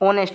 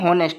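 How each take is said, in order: First: The word starts with a vowel, no h. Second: The word starts with an audible h sound. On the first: The speaker calls it right. "इसमें एच silent होता है" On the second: The speaker calls it wrong. "बहुत सारे बच्चे कर पढ़ते हैं हॉनेस्ट, लेकिन गलत है"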